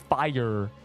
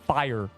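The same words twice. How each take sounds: First: The word is said as two syllables. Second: The word is said as one syllable. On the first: The speaker calls it wrong. "But if you say fire, it's two" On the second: The speaker calls it right. "if you say it properly, like fire, it's one chin movement"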